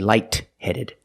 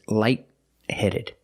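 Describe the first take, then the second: First: The T in light is fully released. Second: The T in light is stopped, not released. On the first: The speaker calls it wrong. "you don't release the T. You don't say light-headed" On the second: The speaker calls it right. "It's light-headed. Link the sounds"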